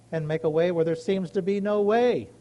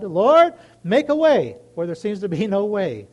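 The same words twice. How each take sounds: First: Said in the usual way. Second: A loud cry of Lord, then the plea; calling out to God. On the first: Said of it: "I go to my God and I say". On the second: Retold or imitated. Asking the listeners, crying out to the Lord. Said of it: "Anybody had to tell God".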